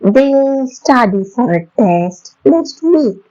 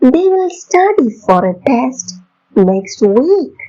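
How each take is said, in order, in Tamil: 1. They, will ஆகியவை ஒரே குறுகிய அசையாக இணைகின்றன. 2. they, will ஆகிய சொற்கள் தனித்தனியாக சொல்லப்படுகின்றன.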